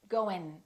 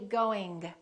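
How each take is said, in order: First: It ends in a plain n at the front. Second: The final g is clearly released. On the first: "they just produce the N before the G, and they produce it in the front of their mouth" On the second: "Don't release it. Don't say going"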